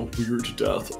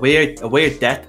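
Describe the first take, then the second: First: Said in a D4 accent, with a full 'th'. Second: Said in a Dublin accent, 'death' sounding like 'debt'. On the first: "D4 would be like" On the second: "in Dublin, at least, people would say debt"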